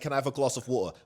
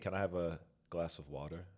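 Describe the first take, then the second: First: It is said in a fully British accent. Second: It is said in an Americanized British accent. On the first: "I can't say" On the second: "I use a more Americanized British accent"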